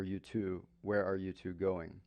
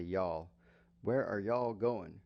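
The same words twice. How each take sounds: First: Said in the usual way. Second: Slow Southern "Y'all. Where are y'all going?" with a long y'all; Southern accent. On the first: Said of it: "Where are you," plural". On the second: Shown as a demonstration. Teacher showing how Southerners ask where you are headed, Southern accent. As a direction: lean into a Southern y'all, slowly. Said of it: "But in the South, they say".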